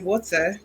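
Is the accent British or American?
British. It is said in a British accent.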